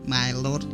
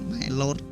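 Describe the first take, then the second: First: It is said as English 'my lord', diphthong intact. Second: The same.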